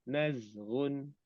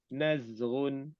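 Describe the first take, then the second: Both takes have the same delivery.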